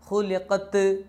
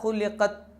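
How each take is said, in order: First: The final t is loud and ringing. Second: The final t is not heard at all. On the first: "ത് എന്ന് കേൾക്കാൻ പാടില്ല, മുഴങ്ങാൻ പാടില്ല" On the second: "തീരെ കേൾക്കാതെ"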